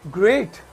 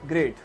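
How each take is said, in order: First: It is said with lively, enthusiastic expression. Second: It is said flatly, without expression.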